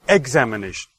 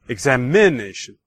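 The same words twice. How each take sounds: First: The stress falls on the first syllable, 'ex'. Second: The stress falls on the third syllable, 'i'. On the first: "if I put the stress on the first syllable"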